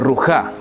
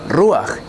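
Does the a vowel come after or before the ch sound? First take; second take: after; before. First: The a vowel comes after the ch sound. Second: The a vowel comes before the final ch sound. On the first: The speaker calls it wrong. "y no rujá" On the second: The speaker calls it right. "Por eso pronunciamos ruach"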